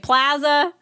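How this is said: It is said with a Midwest accent.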